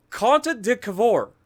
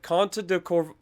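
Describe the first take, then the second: First: Conte de Cavour slow, each syllable stretched in a mock Italian accent; Italian accent attempt. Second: Said in the usual way. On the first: Shown as a demonstration. Gamer practising the Italian ship name aloud, mock Italian accent. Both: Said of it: "that's the best I've got".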